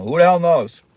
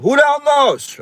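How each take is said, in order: First: Raised catchphrase. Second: High, loud squeal of "Who the hell knows?"; high catchphrase. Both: Pretend. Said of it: "I can't stop saying".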